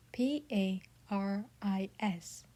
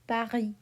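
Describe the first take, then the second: First: P A R I S spelled slowly, letter by letter; spelling out. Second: Paris said pa-REE with a French R and silent S. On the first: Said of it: "We spell the capital". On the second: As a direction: drop the S in Paris. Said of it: "We say". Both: Shown as a demonstration.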